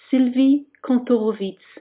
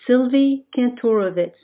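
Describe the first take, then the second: First: The name is pronounced the French way. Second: The name is pronounced the American way. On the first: This is how the name is said in France. "I grew up in France and my name there is pronounced" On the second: This is how the name is said in the United States. "I Americanized the pronunciation to"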